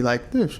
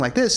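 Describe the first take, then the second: First: The voice sounds muffled, with high tones removed. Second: The voice sounds normal, with its full bright tone.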